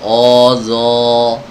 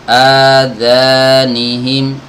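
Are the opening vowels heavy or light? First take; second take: heavy; light. First: The opening vowels are heavy and dark. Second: The opening vowels are light and thin. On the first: The speaker calls it wrong. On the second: The speaker calls it right.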